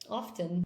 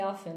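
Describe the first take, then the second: First: The T sound is pronounced. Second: The T sound is silent. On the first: "I always put the T in often. ... that's how I say it" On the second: "Maybe sometimes I say often"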